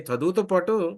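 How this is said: It is said in an astonished, surprised tone. "Next ఆశ్చర్యం"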